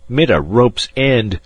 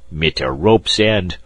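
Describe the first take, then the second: First: Put-on slow German-accented growl, hitting "mit" hard; louder German growl. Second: Put-on slow German-accented growl, stress on rope's. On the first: German passenger repeating his scorn, harder slow German growl. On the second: German passenger scorning the spoiled boy, slow German growl. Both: A narrator's reading. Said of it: "growled the German".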